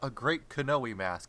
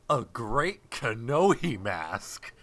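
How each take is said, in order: First: The name is said casually and quickly. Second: The name is said with exaggerated, careful enunciation. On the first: "it's not just a great Kanoe mask" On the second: "they're really trying"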